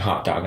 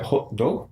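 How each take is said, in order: First: Said in the usual way. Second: Put-on child parroting an Indian accent; badly faked Indian accent, clipped final consonants; copied Indian accent. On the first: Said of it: "instead of saying". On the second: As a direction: echo the tester's Indian accent. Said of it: "I would say it like that".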